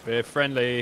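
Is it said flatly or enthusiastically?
flatly. It is said flatly, without enthusiasm.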